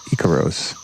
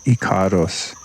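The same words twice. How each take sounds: First: The word is said with an English pronunciation. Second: The word is said with a Spanish pronunciation. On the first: "everyone says icaros in English" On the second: "in Spanish it would be icaros"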